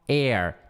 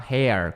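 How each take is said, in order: First: The word begins directly with a vowel. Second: The word begins with an audible H sound. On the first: The speaker calls it right. "esquece o H e fala air" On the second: The speaker calls it wrong. "se podia falar hair com H, mas não"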